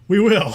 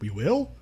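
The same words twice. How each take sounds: First: It is said in an upbeat, cheerful manner. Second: It is said hesitantly, like a question.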